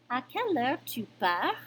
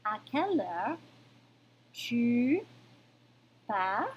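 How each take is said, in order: First: À quelle heure tu pars with a rising question tune; rising tune to ask; question intonation. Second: Rising question tune on pars; asking with a lifted pars; question intonation. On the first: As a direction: lift the end of tu pars. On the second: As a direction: let À quelle heure tu pars rise at the end. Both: Shown as a demonstration. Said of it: "question formation of intonation".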